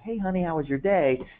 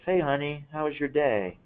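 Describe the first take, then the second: First: It sounds warm and attentive to the child. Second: It sounds absent and distracted, attention elsewhere.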